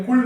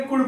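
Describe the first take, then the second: First: "कुड" with L sounded before D; wrong pronunciation. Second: "कुड" with no L before the D; silent L. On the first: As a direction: show the mistake, "कुड" said as "kuld". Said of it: "कुड नहीं बोलेंगे". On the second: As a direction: model short "कुड", L dropped. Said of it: "क्या बोलेंगे?". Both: Shown as a demonstration.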